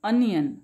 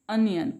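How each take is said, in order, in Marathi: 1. पहिला स्वर लहान 'uh' आवाज आहे. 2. पहिला स्वर लहान 'uh' आवाज आहे.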